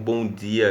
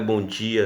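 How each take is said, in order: First: It is said in the local regional accent. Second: It is said in a São Paulo accent. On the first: "Assim como bom dia aqui" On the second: "lá em São Paulo é bom dia"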